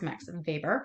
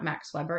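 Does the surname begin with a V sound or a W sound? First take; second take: V sound; W sound. First: The surname begins with a V sound. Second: The surname begins with a W sound. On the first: The speaker calls it right. "That W is pronounced as a V" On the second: The speaker calls it wrong. "It's not"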